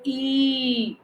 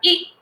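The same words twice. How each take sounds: First: The vowel is drawn out long with force. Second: The vowel is short and unforced. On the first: It would be the long i vowel sign. The speaker calls it wrong. "इस पर जोर नहीं देते हैं, ऐसे नहीं बोलते इसको ई, no" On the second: It is the short i vowel sign. The speaker calls it right. "ये है छोटी ई की मात्रा"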